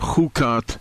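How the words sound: It is said with English-style pronunciation. The speaker calls it wrong.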